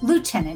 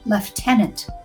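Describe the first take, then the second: First: The word is said the American way. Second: The word is said the British way. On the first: "which means lieutenant here" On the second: "a strange one that I had to learn"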